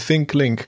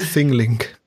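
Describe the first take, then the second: First: It begins with an English th sound. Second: It begins with a sound other than th. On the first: The speaker calls it right. "Da kann man das TH auch gut üben" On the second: The speaker calls it wrong. "kein ThinkLink"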